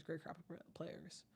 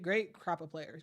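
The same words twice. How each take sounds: First: Much softer, slow repeat, almost to himself; trailing off. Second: Said in the usual way. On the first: Real, not acted. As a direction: let it fade away to nearly nothing. Repeats phrase, second trails off.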